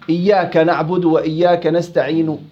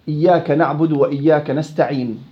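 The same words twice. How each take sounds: First: The final consonant ends with a faint partial vowel. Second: The final consonant ends with no vowel at all. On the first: "هاي شبه حركة" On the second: "إما السكون المحض"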